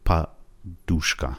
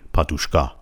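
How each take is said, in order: First: The stress is on the second syllable. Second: The stress is on the last syllable. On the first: The speaker calls it right. "بلکه د و او هستن که دریافتش خواهند کرد" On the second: The speaker calls it wrong. "یه موقع نگین پادوشکا، کا رو استرس نذارین روش"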